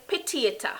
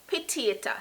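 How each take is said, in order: First: It is pronounced with a Jamaican patois accent. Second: It is pronounced with a Jamaican patois accent.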